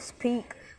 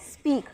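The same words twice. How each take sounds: First: The p is released with a strong puff of air. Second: The p is released without a puff of air. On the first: The speaker calls it wrong. "we do not say speak" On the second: The speaker calls it right. "we simply say speak"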